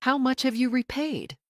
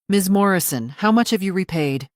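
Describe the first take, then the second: First: Said in the usual way. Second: Louder, insistent demand; firm, louder repeat. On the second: Acted. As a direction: press the question again, louder. Lawyer repeats the unanswered question.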